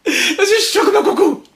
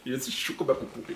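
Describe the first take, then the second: First: Much higher, slower "Je suis chaud comme un coucou" with an odd put-on voice; high mock cry. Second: Muttered line. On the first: Vlogger hamming up his heated mood to viewers, high mock cry. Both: Shown as a demonstration.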